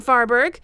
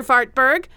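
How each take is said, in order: First: Farberg without any T sound; corrected name Farberg. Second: Fartberg with the T clearly said; wrong name Fartberg. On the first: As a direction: say Farberg properly, no T. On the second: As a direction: say Fartberg, as the kids call him. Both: Shown as a demonstration. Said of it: "I, I mean, Farberg".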